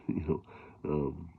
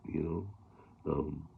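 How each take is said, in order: Both takes have the same delivery.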